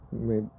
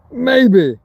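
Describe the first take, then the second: First: A tiny, much softer maybe. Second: A loud, emphatic maybe; first take, punch it out loud. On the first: Demonstrating what maybe means, soft and trailing off. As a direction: let it fall away to almost nothing. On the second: Demonstrating what maybe means, loud and emphatic. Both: Shown as a demonstration. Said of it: "this is what maybe means".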